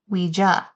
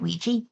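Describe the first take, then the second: First: The ending does not rhyme with squeegee. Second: The ending rhymes with squeegee. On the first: This is how the old advertisement gave it. "it said like it's pronounced Ouija" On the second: This is how the speaker has always said it. "I've always pronounced it Ouija. ... Like squeegee"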